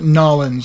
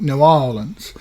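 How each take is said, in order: First: The name is squeezed into two short syllables. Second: The name is said fully as two words. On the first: The speaker calls it wrong. "natives don't call it Nolans" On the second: The speaker calls it right. "with the full use of the word N E W, followed by Orleans"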